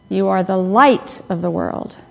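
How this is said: The stress is on "light".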